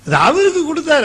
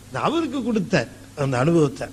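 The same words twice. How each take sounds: First: "அவருக்கு" pitched high and louder, falling at the end; emphatic exclamation. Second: Said in the usual way. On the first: Real, not acted. Preacher stressing "அவருக்கு" to his audience, high and loud. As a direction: lift "அவருக்கு" up high and let it fall.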